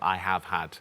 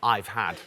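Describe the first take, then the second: First: Every word is said separately and in full. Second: The first two words are joined into one. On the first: The speaker calls it wrong. "It sounds a bit robotic if you say every single word" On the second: The speaker calls it right. "where you draw those words together and say "I've had""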